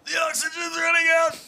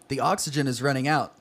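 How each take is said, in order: First: It is said in a breathless, gasping voice. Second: It is said in a plain reading voice.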